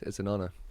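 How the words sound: It is said flatly, with little enthusiasm.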